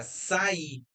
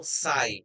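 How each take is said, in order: First: "sair" said as sa-Í, higher, final R dropped; two-syllable hiatus. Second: "sai" as one gliding syllable. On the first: Teacher contrasting the past tense, "sair" as two-syllable sa-Í. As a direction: split "sair" into sa-Í, stressing the I. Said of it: "o verbo sair no passado". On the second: Teacher showing students a diphthong, "sai" in one syllable. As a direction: say "sai" unbroken, stress on the A, sliding into I. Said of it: "ela é um monossílabo". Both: Shown as a demonstration.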